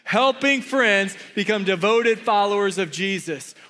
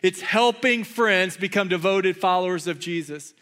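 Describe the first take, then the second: First: It is said with passion and energy. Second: It is said in a calm, plain way.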